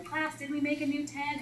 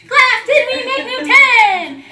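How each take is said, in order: First: Said in the usual way. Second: Loud laughing shout. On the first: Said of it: "Dominic says". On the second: Retold or imitated. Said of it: "the same thing all over again".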